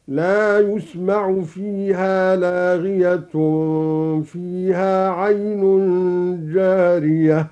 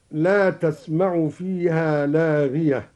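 First: Slow recitation, يسمع as "yusma'u", لاغية ending in -tun; ya with damma in يسمع. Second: Said in the usual way. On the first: Shown as a demonstration. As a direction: recite يسمع in the passive, starting yu. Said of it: "بياء مضمومة". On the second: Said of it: "قرأ الدوري بياء مضمومة".

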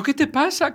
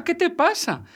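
First: "¿qué te pasa?" cried out much higher in alarm; scared shriek at the pale boy; frightened cry. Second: "¿Qué te pasa?" again, even higher, falling at the end; Luisa's alarmed shout repeated; frightened cry repeated. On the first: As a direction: Luisa panics and shouts, voice shooting up. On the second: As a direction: keep the panic up, pitch soaring. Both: A narrator's reading. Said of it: "se asustó y gritó".

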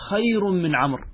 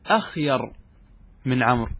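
First: "خير" begun straight on the kh, higher pitched; hamza dropped. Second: "أخير" opening with a glottal "a" before the kh; hamza kept. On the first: Teacher giving students the accepted form, hamza dropped. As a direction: say "خير" with no opening "a". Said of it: "تحذف الهمزة". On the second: Teacher showing students the form Arabs avoid, hamza kept. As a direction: sound the hamza, "akhyar", in "أخير". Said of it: "ولا تقول". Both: Shown as a demonstration.

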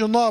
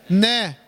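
First: نا with a dark, thickened a; wrong heavy na. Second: نا with a thin, light a; light noon. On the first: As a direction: round the vowel of نا into a heavy aw-like sound. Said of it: "ما تقولش نا بقى". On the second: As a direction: keep نا front and unthickened, like "neh". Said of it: "نون مرققة". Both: Shown as a demonstration.

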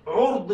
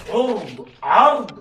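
First: عرض said ʕurd, short u after the ʕ; عرض with a rounded u, ʕurd; ʕurd with damma. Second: عرض said ʕard, open a after the ʕ; عرض with an open a, ʕard, slowly; ʕard with fatha. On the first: Teacher spelling it out for the class: عرض as ʕurd. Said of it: "بضم العين". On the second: Teacher contrasting for the class: عرض as ʕard. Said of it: "بالفتح عكس الطول". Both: Shown as a demonstration.

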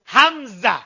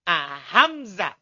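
First: Hamzah said louder with an s-like sound in place of the z; wrong Hamzah. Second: Hamzah drawn out very slowly, z buzzing clearly; slow correct Hamzah. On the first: Student's wrong Hamzah repeated, s sound instead of z. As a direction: show the mistaken sa in Hamzah. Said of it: "Bukan Hamzah". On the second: Pupil finally getting the z in Hamzah, very slow. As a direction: stretch Hamzah and let the z buzz. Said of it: "Bukan sa". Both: Shown as a demonstration.

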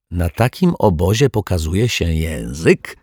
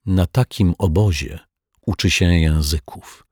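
First: Playful question rising on takim; joking question. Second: Dry reply, takim falling; strict teacher not amused; unsmiling reply. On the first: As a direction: tease it, lifting takim. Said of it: "zażartował pan Mietek". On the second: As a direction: answer flat, with no smile. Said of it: "odpowiedziała bez uśmiechu pani Ryczaj". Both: A narrator's reading.

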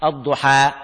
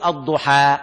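First: الضحى ending on a plain open a; الضحى with a full open a, no leaning; الضحى بالفتح لحفص; fath for Hafs. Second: الضحى with an open a at the end, aduħa; الضحى بالفتح; fath demo. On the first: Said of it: "كما نقرأ لحفص". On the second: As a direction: open the mouth on the final a of الضحى. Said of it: "بهذه الطريقة". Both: Shown as a demonstration.

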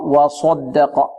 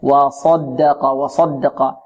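First: وصدق slowly with a "swo" colour on ص; lip-rounded sad. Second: ص in وصدق heavy without pursed lips; unrounded sad. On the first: Teacher repeats the error before rejecting it, lip-rounded sad. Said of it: "هذا من الأخطاء". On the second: Teacher corrects the rounded mistake, unrounded heavy sad. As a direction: keep lips relaxed on the ص of وصدق. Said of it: "خطأ". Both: Shown as a demonstration.

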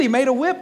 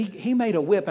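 First: He made a whip, louder and higher, landing hard on whip; stress on whip. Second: Said in the usual way. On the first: Real, not acted. Pastor insists to the congregation that Jesus made a whip, loud and emphatic. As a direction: hit whip like a revelation. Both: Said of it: "repeated for emphasis".

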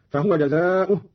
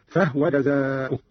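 First: Said in the usual way. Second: Slow, "فهو" as fahwa; vowelless ha. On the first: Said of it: "قرأ قالون بإسكان الهاء". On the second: Shown as a demonstration. Teacher showing Qalun's reading, "فهو" said fahwa. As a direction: close "فهو" on the h: fah-wa. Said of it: "بإسكان الهاء هكذا".

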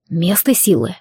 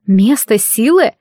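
First: Low, tight-lipped reply with a falling end; terse, grudging male character line; through gritted teeth. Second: Slow, puzzled question rising on «силы»; drawn-out questioning disbelief; surprised echo. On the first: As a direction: force it out through clenched teeth. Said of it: "процедил сквозь зубы детектив". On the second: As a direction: repeat it slowly in bewilderment. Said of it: "Я удивлённо моргнула". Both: A narrator's reading.

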